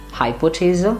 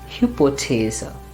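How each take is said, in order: First: The first vowel sounds like English 'high'. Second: The first vowel is a rounded ü sound. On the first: The speaker calls it wrong. "we might tend to pronounce it as hi" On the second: The speaker calls it right. "No, it's hu"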